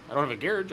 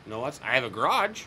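First: "garage" stressed on the first syllable, GARE-idge; British garage. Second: "garage" stressed on the second syllable, guh-RAHZH; American garage. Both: Retold or imitated. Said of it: "Like garage".

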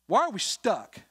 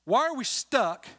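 First: Higher and louder rhetorical question; fervent pulpit challenge; preaching challenge. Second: Even higher, loud and slow, pressing the question; preacher escalating the same question; stronger preaching challenge. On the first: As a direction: call the church out. Repeated rhetorical question, rising. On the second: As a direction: lean harder on the repeat. Repeated with more force. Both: Acted.

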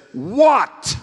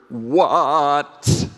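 First: Put-on loud, high, exasperated teenage shout of "What?". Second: Louder "What?" at normal pitch, leaning in; pleading teen "What?". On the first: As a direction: bark "What?" at your mom like an irritated adolescent. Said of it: "knows exactly what that is". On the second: Retold or imitated. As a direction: press "What?" toward your mom, less sharp than a shout. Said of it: "He demurs a little, and then he leans into her".

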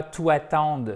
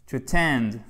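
First: To attend said with French vowels, atand, no stress; teacher mimicking the typical French learner's error; wrong French-style pronunciation. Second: To attend with a reduced first vowel, stress on TEND; teacher giving the right English attend; correct pronunciation. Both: Shown as a demonstration. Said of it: "Et c'est pas to attend".

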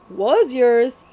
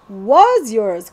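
First: Short, sharp retort; yapping. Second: Louder, firm correction; correcting. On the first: Cutwater yaps at the prince that it was his. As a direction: snap back at the boy. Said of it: "yapped Cutwater". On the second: Billy corrects the prince about the crown, firm. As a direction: set him straight flatly. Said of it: "corrected Hold Your Nose Billy". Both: Acted.

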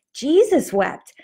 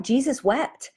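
First: "Jesus wept" said slowly, higher and weighty, every word landed; a slow, reverent second reading of "Jesus wept"; slow emphatic repeat. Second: Said in the usual way. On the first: Shown as a demonstration.

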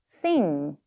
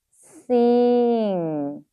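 First: Said in the usual way. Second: "Sing" stretched long; sounding out while writing. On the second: Shown as a demonstration. Teacher telling learners to say it while writing, "Sing" drawn out. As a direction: hold "Sing" out, sliding gently down. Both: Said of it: "발음하시면서 씁니다".

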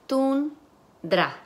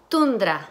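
First: Tundra split as "tun... dra", pitched higher; syllable by syllable. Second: Said in the usual way. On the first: Shown as a demonstration. Teacher segments the word for students, syllable by syllable. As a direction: break Tundra into two separate syllables. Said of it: "van a segmentar sílabas". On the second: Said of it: "si yo digo".

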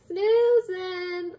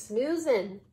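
First: High, loud, stretched SNOOZING; drawn-out, high-pitched "Snoozing"; playful exclamation. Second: Said in the usual way. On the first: Real, not acted. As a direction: sing out "Snoozing" high and long. Playful repeat of the word.

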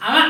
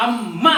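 First: అమ్మ as a quick "ama", short m; single consonant. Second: అమ్మ in two beats, "am", held, then "MA"; firm doubled consonant. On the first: Teacher correcting what a child wrote, అమ్మ with single short m. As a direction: say అమ్మ lightly, without doubling the m. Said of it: "నువ్వు రాసింది అమ్మ కాదు". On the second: Teacher modelling for children, అమ్మ with stressed double m. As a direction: press hard on the మ్మ in అమ్మ. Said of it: "గట్టిగా ఒత్తిచ్చినప్పుడు". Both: Shown as a demonstration.

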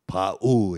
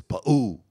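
First: Loud "pa'u" quoted as the mistake; mispronunciation being corrected. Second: Loud "pa'u" with the final u stressed; corrected pronunciation. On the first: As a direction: say "pa'u" loudly as the rejected version, both syllables drawn out. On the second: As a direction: say "pa'u" as the correction, leaning on a higher u. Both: Retold or imitated. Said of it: "they'd correct, you know, the pronunciation".

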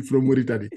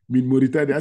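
First: Said in the usual way. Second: Put-on Arabic accent. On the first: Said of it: "Je lui ai dit". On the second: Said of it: "Je lui ai dit, From Mauritanie".

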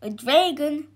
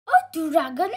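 First: Slightly raised, lightly voiced shepherd; shepherd's reply. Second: Higher, louder startled question; startled yelp. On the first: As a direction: confirm it as the worried shepherd. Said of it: "said the shepherd". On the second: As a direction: yelp it as an alarmed wife. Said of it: "yelped the wife". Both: A narrator's reading.

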